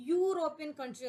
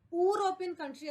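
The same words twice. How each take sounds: First: യൂറോപ്യൻ opening with a clear y sound; യൂറോപ്യൻ with a y glide first; correct pronunciation. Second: യൂറോപ്യൻ said with a bare vowel start, no y; the wrong യൂറോപ്യൻ; wrong pronunciation. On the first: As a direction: say യൂറോപ്യൻ country starting on a y. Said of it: "പകരം". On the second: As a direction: say യൂറോപ്യൻ country the mistaken way. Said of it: "എന്നല്ല നമ്മൾ pronounce ചെയ്യുക". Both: Shown as a demonstration.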